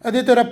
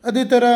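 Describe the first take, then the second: No difference in how they are said.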